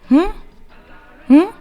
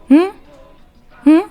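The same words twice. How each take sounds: The two takes are said the same way.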